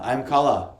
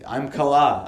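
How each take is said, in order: First: Kala as KAH-luh; "Kala" leaning on the opening KAH; Kala stressed on first syllable. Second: Kala as kuh-LAH; "Kala" leaning on the final LAH; Kala stressed on second syllable. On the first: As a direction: say Kala with a long stressed first vowel, short ending. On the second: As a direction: say Kala with a short first vowel, long stressed ending. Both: Shown as a demonstration. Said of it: "Is it Kala or Kala?".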